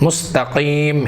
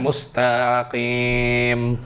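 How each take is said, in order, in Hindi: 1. शब्द सामान्य लंबाई में बोला गया है। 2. शब्द को लंबे स्वरों के साथ खींचकर बोला गया है।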